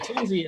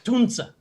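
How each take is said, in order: First: The name ends in an ee sound. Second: The name ends in an uh sound. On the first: This is the common way of saying it. The speaker calls it wrong. "Tunzi is actually Tunza" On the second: This is the correct way of saying it. The speaker calls it right. "actually Tunza"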